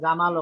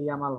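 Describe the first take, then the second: First: The name begins with a J sound. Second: The name begins with a Y sound. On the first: This is how the name is said at home. "আমাদের জামাল" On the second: This is how the name is said in Germany. "ওখানে গিয়ে ইয়ামাল হবে"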